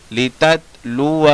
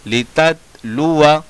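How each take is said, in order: First: लिततलुआ with the final आ held long; slow लिततलुआ, alif sounded; written-form reading. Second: लिततलुआ with a short final अ; measured लिततलुआ, alif silent; correct recitation. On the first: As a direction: draw out the last vowel of लिततलुआ. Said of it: "लिखने का तरीका". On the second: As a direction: keep the last vowel of लिततलुआ brief. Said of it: "पढ़ने का तरीका". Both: Shown as a demonstration.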